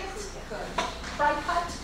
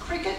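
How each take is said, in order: First: It is said as two parts, 'cry cut'. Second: It is said like the word 'cricket'. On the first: This follows the spelling. "it's spelled C-R-I-C-U-T" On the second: This is how the makers say it. "they're pronouncing it cricket"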